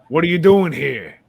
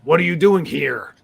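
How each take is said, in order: First: The R sounds are softened or dropped. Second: The R sounds are pronounced hard and strong. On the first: "instead of being like" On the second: "And he'll really hit the R's hard"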